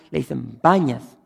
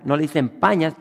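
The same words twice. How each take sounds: First: "Bañas" said with a b where the p should be; "Bañas" as Arabic speakers say it. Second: "Pañas" said with a clear p at the start; "Pañas" with a proper p. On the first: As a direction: replace the p with b in "Bañas". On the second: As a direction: hit the p in "Pañas" cleanly. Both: Shown as a demonstration. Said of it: "no pueden pronunciar la P".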